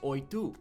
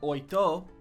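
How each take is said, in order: First: The final vowel sounds like 'oo'. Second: The final vowel sounds like 'oh'. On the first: The speaker calls it right. "it's pronounced like a U" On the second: The speaker calls it wrong. "it's not oito"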